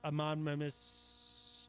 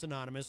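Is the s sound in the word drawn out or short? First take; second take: drawn out; short. First: The final s sound is long and hissing. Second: The final s sound is short and normal. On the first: "as uh, the president says" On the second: "I would keep this anonymous"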